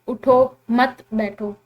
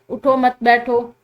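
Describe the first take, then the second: First: The pause comes after the first word. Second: The pause comes after the second word.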